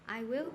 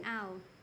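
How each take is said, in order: First: Both words are said fully and separately. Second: The words merge into one short contracted syllable. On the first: The speaker calls it wrong. "instead of saying I will" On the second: The speaker calls it right. "you should say ow"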